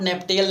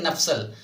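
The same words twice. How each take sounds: First: "नेप्टेल" with a sounded T, nep-tel; misreading "नेप्टेल" as nep-tel; wrong pronunciation. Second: "नप्सल" as nap-sal, with s replacing t; correct pronunciation. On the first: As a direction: say "नेप्टेल" as spelt, with t in place of s. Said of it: "not नेप्टेल नहीं पढ़ेंगे". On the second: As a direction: say "नप्सल" in two syllables, nap-sal, pitch dropping. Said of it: "क्या इसको पढ़ेंगे". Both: Shown as a demonstration.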